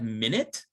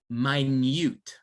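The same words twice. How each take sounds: First: It is said like the ordinary time noun. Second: It is said as the adjective form. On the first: The speaker calls it wrong. "looks like minute" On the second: The speaker calls it right. "actually it's minute because it's an adjective"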